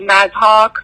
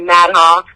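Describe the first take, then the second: First: The surname is said with a Persian accent. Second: The surname is said with an American accent. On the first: "Persians say" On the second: "Americans say"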